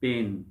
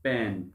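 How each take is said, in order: First: पेन with a long a as in pane; the a in पेन stretched long, like name. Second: पैन with a short flat a as in pan; the a in पैन kept short, like cat. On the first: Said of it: "ई लगाने से क्या बना". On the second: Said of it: "ई ना लगाने से क्या बना". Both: Shown as a demonstration.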